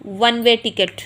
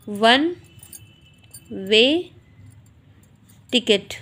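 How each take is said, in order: First: Said in the usual way. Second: "one way ticket" with a long pause after each word; word-by-word dictation. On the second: Shown as a demonstration. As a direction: dictate "one way ticket" slowly, one word at a time. Dictates word by word while writing. ("वन way ticket" एक-एक शब्द रुककर, लिखवाते हुए)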